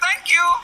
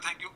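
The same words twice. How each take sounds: First: It is said at a raised pitch. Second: It is said at a normal pitch. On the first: It is the reply to the thanks. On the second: It is the first thanks.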